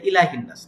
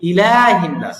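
First: The vowel after l is short. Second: The vowel after l is drawn out long. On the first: The speaker calls it wrong. "অনেকে বলে ইলাহিন নাস" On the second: The speaker calls it right. "ইলাতে লাতে যেটা খালা যাবে"

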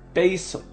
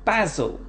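First: It is said with an American pronunciation. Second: It is said with a British pronunciation.

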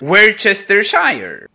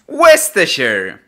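First: Every written syllable of the word is sounded out. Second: The word is shortened, with middle syllables dropped. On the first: The speaker calls it wrong. "Jak to słowo widzi mój mózg?" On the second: The speaker calls it right. "Jak się czyta?"

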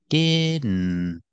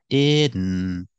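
No difference in how they are said.

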